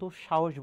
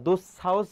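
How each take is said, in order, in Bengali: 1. মাঝের ব্যঞ্জনটি sh ধ্বনি। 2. মাঝের ব্যঞ্জনটি সাধারণ s ধ্বনি। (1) "আমরা দুঃসাহস বলি, তালবস্যই হবে" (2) "দুঃসাহস বলি না"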